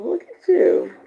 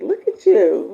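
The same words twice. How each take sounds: First: High delighted look at you. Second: Said in the usual way. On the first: Real, not acted. Host delighting in a viewer on vacation, high and playful.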